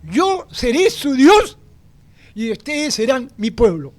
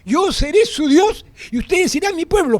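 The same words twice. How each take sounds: First: Each word weighted, DIOS high and rising; slow weighty proclamation; slow solemn stress. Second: Firm ringing declaration; stress on SERÉ. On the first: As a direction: proclaim it slowly like a vow. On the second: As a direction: declare it as one firm statement. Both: Shown as a demonstration.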